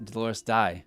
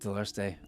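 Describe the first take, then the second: First: The last syllable rhymes with 'eye'. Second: The last syllable rhymes with 'say'. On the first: The speaker calls it wrong. "I'd pronounce it Dolores Die" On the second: The speaker calls it right. "E I is pronounced A"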